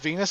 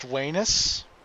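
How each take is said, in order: First: The word begins with a V sound. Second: The word begins with a W sound. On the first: The speaker calls it wrong. "it's not actually pronounced" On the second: The speaker calls it right. "it's pronounced"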